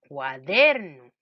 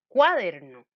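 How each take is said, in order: First: The stress is on the second syllable. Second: The stress is on the first syllable. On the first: The speaker calls it right. "si le pongo el acento en la sílaba der" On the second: The speaker calls it wrong. "Si yo le pongo a cuaderno el acento en la sílaba cua"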